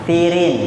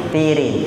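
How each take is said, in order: Both takes have the same delivery.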